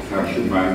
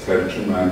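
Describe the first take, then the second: First: "terjüman" said the Arabic way; the Arabic form of "terjüman"; Arabic pronunciation. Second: "terjüman" said the Turkish way; the Turkish form of "terjüman"; Turkish pronunciation. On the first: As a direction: say "terjüman" as Arabic, with an open first vowel. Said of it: "the Arabic word". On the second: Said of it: "that's terjüman in Turkish". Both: Shown as a demonstration.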